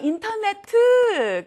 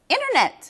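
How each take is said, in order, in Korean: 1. 한국식 발음으로 말합니다. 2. 영어식 발음으로 말합니다.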